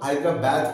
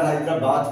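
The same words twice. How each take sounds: First: It is said in a British accent. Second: It is said in a South Asian accent. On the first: "ব্রিটিশরা হয়তো হায়দ্রাবাদ করবে" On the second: "আমরা হায়দ্রাবাদ করব"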